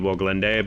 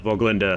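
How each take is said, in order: First: The name begins with an English W sound. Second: The name begins with a V sound. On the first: The speaker calls it wrong. "I've always heard it referenced as the Voglinde" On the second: The speaker calls it right. "Voglinde sounds like it's more accurate"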